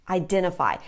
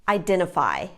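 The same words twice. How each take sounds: No difference in how they are said.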